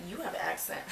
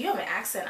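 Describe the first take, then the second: First: YOU picked out as a retort; stress on YOU. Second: Retold remark in a light Indiana accent; imitated Indiana accent. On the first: Retold or imitated. Traveler turning the remark back on Indiana girl, stress on YOU. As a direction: throw it back, leaning on the word YOU. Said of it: "I said". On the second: Indiana girl pointing out traveler's accent, imitated Indiana accent. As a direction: lightly mimic an Indiana speaker. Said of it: "With her Indiana accent".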